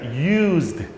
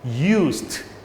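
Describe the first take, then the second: First: The word ends with a voiced z-d sound. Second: The word ends with a voiceless s-t sound. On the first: "z, z" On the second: "st예요"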